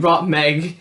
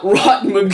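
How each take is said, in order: First: The second syllable has the vowel of 'egg'. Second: The second syllable has the vowel of 'mug'. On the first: The speaker calls it right. "it's supposed to be Rotmeg" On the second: The speaker calls it wrong. "not Rotmug"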